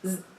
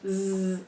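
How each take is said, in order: First: The Z sound is clipped very short. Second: The Z sound is drawn out long. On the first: The speaker calls it right. "making our sounds really short. ... as quick as you can say it" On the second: The speaker calls it wrong. "Instead of saying Z"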